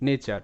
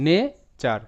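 First: Said in the usual way. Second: nature broken into "ne", pause, "char"; split syllables. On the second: Shown as a demonstration. Teacher sounds out the word for learners, nature split "ne - char". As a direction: hold nature apart as two syllables, first raised, second falling.

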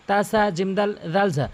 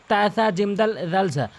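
No difference in how they are said.

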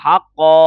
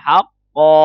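First: ฮักกอ with the vowel held too long, the wrong way. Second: ฮักกอ with the vowel held for just two counts; correct length of two. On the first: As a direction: overstretch the vowel in ฮักกอ as a mistake. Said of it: "เราอย่าไปอ่านว่าฮักกอ". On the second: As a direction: say ฮักกอ holding only two beats, no more. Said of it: "แค่สองพอนะครับ". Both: Shown as a demonstration.

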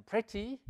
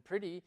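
First: "pretty" as PREH-tee, with a sounded t; British pronunciation. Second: "pretty" as PRIH-dee, t softened to a tap; American pronunciation. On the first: Teacher showing what the English say, "pretty" as PREH-tee. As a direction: say "pretty" with an e and a crisp t. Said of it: "los ingleses dicen pretty". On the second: Teacher showing what Americans say, "pretty" as PRIH-dee. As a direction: say "pretty" with an i and a flapped t. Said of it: "los americanos dicen pretty". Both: Shown as a demonstration.

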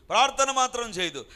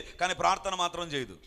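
First: ప్రార్థన hit hard, the whole line louder; stressed ప్రార్థన in a preacher's louder repeat; emphatic repeat. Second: Said in the usual way. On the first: Shown as a demonstration. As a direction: punch ప్రార్థన and drive the line home. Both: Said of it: "repeated for emphasis".

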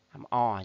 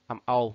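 First: Second "O" said as a pure open aw; open "o" sound. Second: First "O" said as the gliding oh in role; "oh" glide sound. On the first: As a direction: pronounce "O" as aw, without a glide. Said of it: "còn mấy từ kia đọc là". (đọc "O" thành âm o mở) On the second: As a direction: pronounce "O" as a diphthong, oh-oo. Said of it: "là role". (đọc "O" thành âm âu như trong role) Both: Shown as a demonstration.

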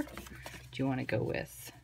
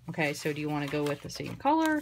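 First: Slow whisper, thinking aloud; a slow whispered aside to herself; whispered to self. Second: Said in the usual way. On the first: Real, not acted. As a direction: whisper it slowly as you mull it over. Repeats question softly to self.

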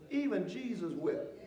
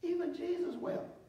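First: Even Jesus wept slowed and dropped low. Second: "Even Jesus wept" raised high on Even; lifted emphasis. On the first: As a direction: let "even Jesus wept" sink slowly. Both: Shown as a demonstration. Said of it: "watch this".

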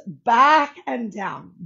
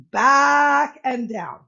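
First: Said in the usual way. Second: "back and down" slow, loud and emphatic; stressed, drawn out. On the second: Shown as a demonstration. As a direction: stretch out "back and down" with force. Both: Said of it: "You heard me".

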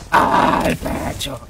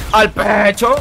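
First: "Al pecho" whispered, very slow and drawn out; slow whispered catchphrase. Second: Loud punchy "Al pecho"; shouted catchphrase. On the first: Acted. Streamer whispering his catchphrase to chat. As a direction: breathe it out slowly like a secret. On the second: Real, not acted. Gamer yelling his catchphrase mid-fight. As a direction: bark it out at the rival.

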